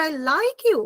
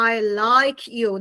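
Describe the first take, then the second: First: I like you with higher, lighter vowels; wrong I sound. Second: I and like with long, open I; low, measured I like you, full vowels; correct I sound. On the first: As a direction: lift like, vowels not held. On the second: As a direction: stretch each I in I like you. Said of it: "not I like you". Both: Shown as a demonstration.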